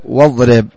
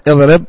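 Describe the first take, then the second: First: واضرب linked straight from wa into the d, "wadrib"; hamza dropped. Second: اضرب begun with an audible glottal stop and short i; initial hamza pronounced. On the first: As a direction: drop the hamza in واضرب after the waw. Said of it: "وتسقط عند الدرج". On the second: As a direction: sound the opening hamza in اضرب, "idrib". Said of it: "تثبت عند الابتداء بالنطق". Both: Shown as a demonstration.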